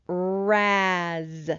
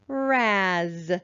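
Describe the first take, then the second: First: The word is blended at a moderate speed. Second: The word is blended at a quicker speed. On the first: "Again, a little faster" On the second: "And one more time, a little faster"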